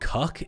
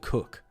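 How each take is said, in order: First: The vowel is short and open, like 'cuck'. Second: The vowel is rounded, like 'cook'. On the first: "why do I sometimes say cuck" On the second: "instead of cook"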